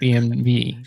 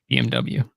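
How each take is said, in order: First: The last letter is said as 'vay'. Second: The last letter is said as 'double-u'. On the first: This is the German way of saying the name. "if you actually win a war you fucking start, then you can call it B M W" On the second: This is the English way of saying the name. "Until then"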